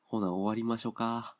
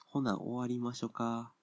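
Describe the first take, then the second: First: Light Kansai-ben wrap-up, ほな at the front; mock Kansai dialect. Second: Slower mock Kansai dialect. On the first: Host closing his podcast to listeners, in playful mock Kansai dialect. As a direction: ease into Osaka dialect for ほな、終わりましょうか. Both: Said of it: "関西弁で喋るって言ってるのも".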